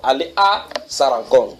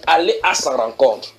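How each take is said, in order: First: Slow, leaning on sa in allez à sa rencontre; stress on sa. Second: Said in the usual way. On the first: Shown as a demonstration. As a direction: hit sa to mean his meeting, not theirs. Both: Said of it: "Pas à leur rencontre".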